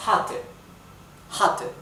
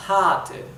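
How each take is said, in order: First: "Hatte" with a short clipped a before the double t; "Hatte", the a kept short; short vowel. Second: "hatte" with the a stretched long as if single t; long vowel. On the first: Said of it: "se pronuncia corta". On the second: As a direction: draw out the a in "hatte". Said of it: "Si hubiera una sola T, sería". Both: Shown as a demonstration.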